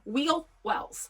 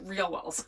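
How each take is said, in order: First: The first word starts with a W sound. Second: The first word starts with an R sound. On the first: The speaker calls it right. "I think that's what they're called" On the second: The speaker calls it wrong. "I always want to say it with an R"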